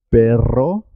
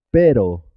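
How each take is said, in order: First: Perro with rolled rr, rising; double R. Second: Pero with a single tapped R; simple R. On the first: Teacher contrasts perro with pero, rr rolled. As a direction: trill the R in perro, ending up. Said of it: "suena doble". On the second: Teacher contrasts pero with perro, R tapped once. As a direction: tap the R in pero once, falling. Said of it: "suena simple". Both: Shown as a demonstration.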